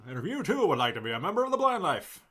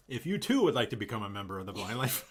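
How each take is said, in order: First: High, loud announcer pitch; infomercial voice. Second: Quick rushed sales plug; infomercial voice. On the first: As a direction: sell it like a TV ad. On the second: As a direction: rattle off the plug like an ad. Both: Acted. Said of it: "You sound like an infomercial".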